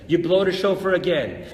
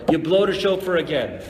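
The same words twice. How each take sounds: The two takes are said the same way.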